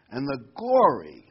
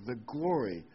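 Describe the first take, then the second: First: "glory" slowed and said much louder; stress on glory. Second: Said in the usual way. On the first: Shown as a demonstration. Pastor reading scripture to the flock, punching "glory". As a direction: hit the word "glory" hard and slow. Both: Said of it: "I'm gonna emphasize the word glory here".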